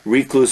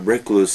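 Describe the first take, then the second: First: The first syllable is pronounced like 'ree'. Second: The first syllable is not pronounced like 'ree'. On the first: The speaker calls it wrong. "some people say" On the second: The speaker calls it right. "I think, the better pronunciation"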